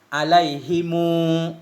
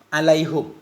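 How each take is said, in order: First: The h takes an i; m takes a long u. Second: The h takes a u vowel; final m is bare. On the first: "dengan waw sesudah dhammah isbah" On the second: "dhammahnya ha alaihu bersama sukun mim"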